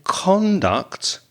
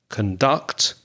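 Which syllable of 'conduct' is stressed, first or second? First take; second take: first; second. First: The stress is on the first syllable. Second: The stress is on the second syllable. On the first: It is used as a noun. "the noun, has first syllable stress" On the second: It is used as a verb. "When it's a verb, the second syllable is stressed"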